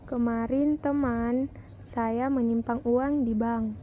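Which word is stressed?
teman. The word teman is stressed. "Pada kalimat kedua mendapat tekanan pada kata teman"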